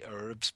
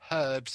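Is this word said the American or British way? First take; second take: American; British. First: It is said the American way. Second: It is said the British, non-American way. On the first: "they say herbs" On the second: "the Americans don't say herbs"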